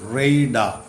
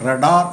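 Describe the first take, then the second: First: The first vowel is an 'ay' sound. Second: The first vowel is a short 'a'. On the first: The speaker calls it right. "ഇതിൻ്റെ ഉച്ചാരണം റേഡാർ എന്നാണ്" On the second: The speaker calls it wrong. "ചിലപ്പോൾ നിങ്ങളിത് വായിച്ചത് റഡാർ എന്നായിരിക്കും. അങ്ങനെയല്ല"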